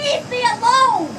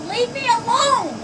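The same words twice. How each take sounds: First: Slow, loud exasperated yell. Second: Slow, sharp, fed up; exasperated. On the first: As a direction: shout it out, fed up. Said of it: "You're the only one yelling". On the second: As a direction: drag it out, fed up. Neighbour quarrel, pleading. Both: Real, not acted.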